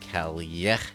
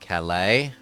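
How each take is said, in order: First: The double L sounds like a Y. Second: The double L sounds like an L. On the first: The speaker calls it right. "When the L sound is doubled, it's a Y sound" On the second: The speaker calls it wrong. "not Calais"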